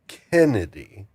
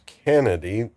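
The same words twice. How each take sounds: First: The first syllable sounds like 'ken'. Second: The first syllable sounds like 'can'. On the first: The speaker calls it wrong. "not Kennedy" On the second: The speaker calls it right. "make sure that's Kennedy ... with a C A N N I D Y"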